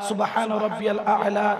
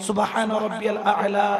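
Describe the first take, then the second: The two takes are said the same way.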